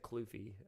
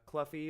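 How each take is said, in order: First: The vowel after 'Cl' sounds like 'you'. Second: The vowel after 'Cl' sounds like 'cup'. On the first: The speaker calls it right. "I should have said Kloofy uh, because it's Yuffie" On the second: The speaker calls it wrong. "I pronounced it Cluffy. Oopsies"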